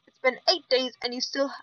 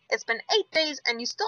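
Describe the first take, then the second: First: It is read in the speaker's natural voice. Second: It is read in a put-on character voice.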